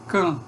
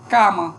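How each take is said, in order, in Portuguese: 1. A vogal tônica é fechada e é nasalizada. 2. A vogal tônica é aberta e não é nasalizada. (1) "Falante de português vai dizer can" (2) "Um estrangeiro que esteja aprendendo a falar português, talvez ele diga cama"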